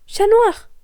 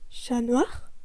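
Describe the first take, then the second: First: High, loud call across the rooftops; a high ringing call. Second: Said in the usual way. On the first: Acted. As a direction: shout his name to get his attention. Ladybug calls out to him.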